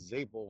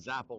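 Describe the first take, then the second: First: The first vowel sounds like in staple. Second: The first vowel sounds like in apple. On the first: This is the name used in everyday life. "like staple" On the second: This is the name used when racing. "like apple"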